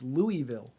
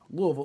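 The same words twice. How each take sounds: First: Each syllable is said with clear, full vowels. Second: The vowels are swallowed and the word is rushed. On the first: The speaker calls it wrong. "I know how not to say it" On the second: The speaker calls it right. "there's no vowels in it, and you're just kind of brushing through all the consonants as quickly as possible"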